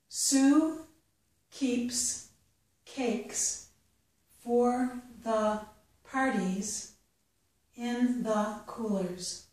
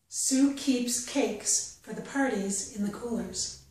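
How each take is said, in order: First: The sentence is read slowly. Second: The sentence is read at a natural pace. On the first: "The first time I'll read it slowly" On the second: "the second time at a more natural pace"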